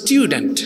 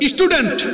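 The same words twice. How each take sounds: First: The word is said in a British accent. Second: The word is said in a Bangladeshi accent. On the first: The speaker calls it right. "এটা তো উচ্চারণ হবে স্টুডেন্ট" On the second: The speaker calls it wrong. "ইংরেজি আপনি বলতেছেন স্টুডেন্ট"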